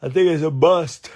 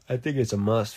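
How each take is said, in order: First: High, loud excited outburst; emphatic exclamation. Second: Said in the usual way. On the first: Real, not acted. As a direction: blurt it out loudly, pitched high. Exclaims, then repeats it normally.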